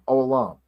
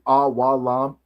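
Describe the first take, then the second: First: The first syllable is a single o sound. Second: The first syllables are spoken as a-wa. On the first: "if you're like kind of say it fast, we get you kind of your o sound" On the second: "you could be like awalam"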